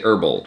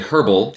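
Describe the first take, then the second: First: It is said the American way. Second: It is said the British way. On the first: "here we say herbal" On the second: "you you say herbal"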